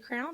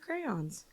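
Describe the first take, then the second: First: The word sounds like 'crowns', with one vowel. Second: The word sounds like 'cray-ons', with two vowels.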